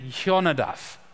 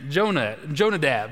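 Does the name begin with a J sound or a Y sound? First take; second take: Y sound; J sound. First: The name begins with a Y sound. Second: The name begins with a J sound. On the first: The speaker calls it right. "That's how you say those two words" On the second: The speaker calls it wrong. "that's the Okie way to say it"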